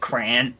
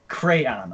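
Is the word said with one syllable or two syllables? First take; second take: one syllable; two syllables. First: The word is squeezed into one syllable. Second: The word is said with two syllables. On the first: The speaker calls it wrong. "It's not crayon" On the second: The speaker calls it right. "Crayon, okay?"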